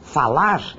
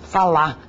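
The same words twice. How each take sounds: First: The final r sound is pronounced. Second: The final r sound is dropped. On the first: This is the full written form of the word. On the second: This is the reduced form used in speech.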